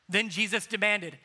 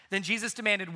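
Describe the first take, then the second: First: Demanded read firm; stress on demanded. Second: "demanded" hit firmly; stress on demanded. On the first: Preacher stressing "demanded" for the congregation. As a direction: lean on "demanded". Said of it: "didn't ask politely, he demanded". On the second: Preacher rereading the verse with stress on "demanded". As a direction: land hard on "demanded". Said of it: "he demanded". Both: Shown as a demonstration.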